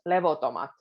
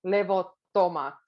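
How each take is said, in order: First: "levotomat" with one short T; single T. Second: "levottomat" with a long held double T. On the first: Teacher showing the wrong single-T "levotomat". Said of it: "if you say it with one T". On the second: Teacher showing learners the doubled T in "levottomat". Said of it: "focus on the double T". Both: Shown as a demonstration.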